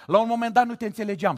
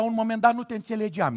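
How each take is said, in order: First: Quick higher mock prayer; fast rushed repeat. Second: Fast mumble-rush. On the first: Preacher teasing a sister behind him, fast. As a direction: rattle it off fast. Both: Shown as a demonstration. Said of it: "repeated take".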